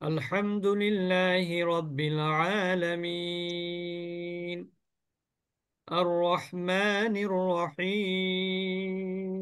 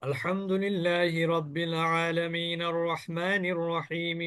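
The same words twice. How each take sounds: First: Each verse ends in a lengthened vowel and pause. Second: The verses run together in one breath without pausing. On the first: "আমি প্রত্যেক আয়াতের শেষে কিন্তু কি করেছি?" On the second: "তারাবিতে যেভাবে পড়ে ইমাম সাহেবরা"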